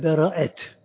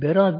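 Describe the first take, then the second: First: The word has three syllables, with vowels split. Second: The word has two syllables, with one vowel. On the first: It means deliverance or being cleared of something. The speaker calls it right. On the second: It names a rank or decree given by a sultan. The speaker calls it wrong. "Berat değil"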